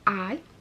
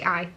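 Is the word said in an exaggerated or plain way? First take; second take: exaggerated; plain. First: The word is drawn out with heavy emphasis. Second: The word is said plainly without extra emphasis. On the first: "Really emphasise that word, didn't I?" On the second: "I normally just say eye"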